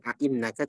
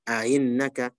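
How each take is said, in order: First: The second glottal stop is pronounced fully and clearly. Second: The second glottal stop is softened toward a vowel. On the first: The speaker calls it wrong. "Dibaca bukan" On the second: The speaker calls it right.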